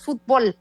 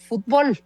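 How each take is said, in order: First: Fútbol said "fut-BOL"; stress on last syllable. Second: Fútbol as the word not to accent; stress on fútbol. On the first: Guest showing how Mexico says it, fútbol as fut-BOL. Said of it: "así, como una palabra aguda". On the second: Guest citing the word, fútbol set apart. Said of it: "en México no acentuamos fútbol". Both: Shown as a demonstration.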